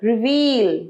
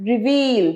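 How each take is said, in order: First: The second vowel is long. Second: The same.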